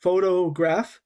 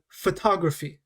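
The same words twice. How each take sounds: First: "Photograph" said carefully with PHO stressed; clearly separated PHO-to-graph; stress on first syllable. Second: "photography" with TOG stressed; teacher's clear pho-TOG-raphy; stress on second syllable. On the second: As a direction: hit the second syllable of "photography", first one reduced. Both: Shown as a demonstration. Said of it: "we're stressing different parts of this word".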